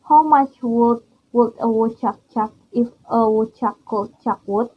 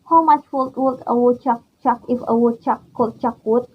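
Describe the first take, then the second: First: It is said at a normal speed. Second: It is said quickly.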